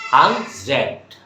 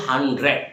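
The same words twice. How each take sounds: First: "হান্ড্রেড" in two separate beats, "han-zred"; reduced native pronunciation. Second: Said in the usual way. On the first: Shown as a demonstration. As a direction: replace the middle d of "হান্ড্রেড" with a z-like hiss. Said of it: "আমরা কি বলবো?". ("হান্ড্রেড"-কে "হানজ্রেড") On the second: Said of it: "হান্ড্রেড বলবো না".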